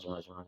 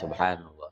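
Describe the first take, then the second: First: It is said very fast. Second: It is said slowly and calmly.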